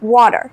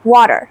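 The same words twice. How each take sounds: First: The t sounds like a soft d. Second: The t sounds like a soft d.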